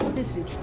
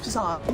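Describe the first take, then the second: First: The name is said in a plain English way. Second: The name is said in a posh, French-like way. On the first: The speaker calls it wrong. "not Visage" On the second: The speaker calls it right. "I've always felt it was Visage"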